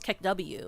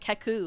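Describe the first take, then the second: First: It ends with the spoken letter name 'W'. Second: It ends in a plain 'oo' vowel sound. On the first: The speaker calls it right. "it's not keku, it's kek W" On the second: The speaker calls it wrong. "I thought it was read as keku"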